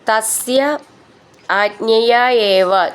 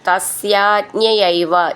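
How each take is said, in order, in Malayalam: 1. വാക്കുകൾ വേറെ വേറെ വാക്കുകളായിട്ടാണ് പറയുന്നത്. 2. വാക്കുകൾ ഒന്നായി ചേർന്ന് ഒരു വാക്കായിട്ടാണ് പറയുന്നത്.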